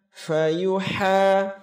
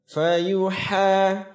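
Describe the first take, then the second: Both takes have the same delivery.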